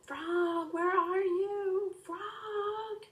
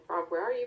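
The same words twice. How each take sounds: First: High, drawn-out yell; calling out. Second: Said in the usual way. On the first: Acted. Boy at the open window yelling for his lost frog, long high call. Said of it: "and yelled".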